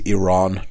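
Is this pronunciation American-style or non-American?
non-American. The name is said in a non-American way. The speaker calls it right. "For those of you in America, it is Iran"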